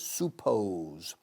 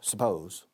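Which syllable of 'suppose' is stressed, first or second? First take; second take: first; second. First: The stress is on the first syllable. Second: The stress is on the second syllable. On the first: The speaker calls it wrong. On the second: The speaker calls it right.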